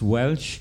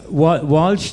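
First: The vowel sounds like the one in 'ell'. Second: The vowel sounds like the one in 'all'. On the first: This is the local pronunciation in Tipperary. "down in Tip is pronounced Welsh" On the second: This is the usual pronunciation of the name.

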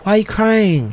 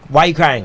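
First: It is said in a gentle, caring tone. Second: It is said in a harsh, scolding tone.

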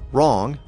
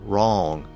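First: The vowel is short and clipped. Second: The vowel is stretched out long.

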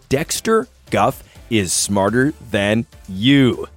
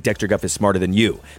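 First: It is said very slowly. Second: It is said quickly.

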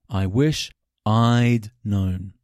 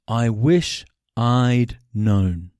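First: The word 'had' is reduced to a contraction. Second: The same.

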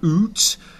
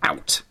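First: The vowel is a long 'oo' sound. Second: The vowel is an 'ow' diphthong. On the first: This is how the word was said around 1400. "that would have started off around 1400 as oot" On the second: This is the later form of the word. "The changes there from 1400 to 1900"

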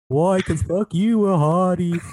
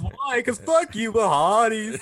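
First: It is said flatly, with less movement. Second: It is said with lively, animated energy.

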